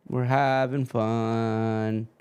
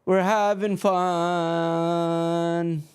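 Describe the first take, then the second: First: Slow, flat "We're having fun" in the usual pitch; dry and unimpressed, "We're having fun" said slowly; deadpan. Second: High, slow sing-song "We're having fun", each word drawn out; mock-cheerful sarcasm, stretch out "We're having fun"; sarcastic. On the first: Acted. Stream keeps freezing, deadpan repeat. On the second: Stream keeps freezing, sarcastic.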